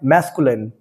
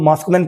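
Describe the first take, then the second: First: The first vowel sounds like 'a' in 'cat'. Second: The first vowel sounds like 'ah'. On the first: The speaker calls it right. "इसे दोस्तों हमें पढ़ना होता है मैस्कुलिन" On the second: The speaker calls it wrong. "जो हम लोग मास्कुलिन पढ़ते हैं"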